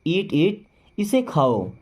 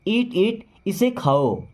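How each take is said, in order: Both takes have the same delivery.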